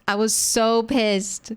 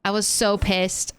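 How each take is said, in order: First: So drawn out and pressed, slower; slow emphatic "so pissed"; stress on so. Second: Said in the usual way. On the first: Real, not acted. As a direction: lean hard on "so" in "I was so pissed". Repeats for emphasis.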